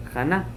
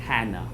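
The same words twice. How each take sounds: First: "Chana" with a throaty kh at the start; "Chana" with a raspy Hebrew ch, questioning; Hebrew pronunciation. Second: "Hannah" with a soft English h; "Hannah" anglicized, no guttural at the start; English pronunciation. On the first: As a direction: say "Chana" the Hebrew way, with a guttural first sound. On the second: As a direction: say "Hannah" the English way, low and quiet. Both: Shown as a demonstration. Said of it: "Like that?".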